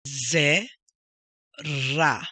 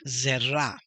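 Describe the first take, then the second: First: ZE, long pause, RA, both loud; emphatic split ze ... ra; syllable by syllable. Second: ZERA joined up as one word; emphasis shown. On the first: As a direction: sound out ze and ra apart. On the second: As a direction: blend ze and ra into Zera. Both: Shown as a demonstration. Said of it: "that's where the emphasis goes".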